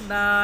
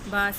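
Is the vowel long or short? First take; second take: long; short. First: The vowel is stretched long like a madda. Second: The vowel is short and not stretched. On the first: The speaker calls it wrong. "बा ना बने" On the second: The speaker calls it right. "ज़बर को इतना मत खींचे"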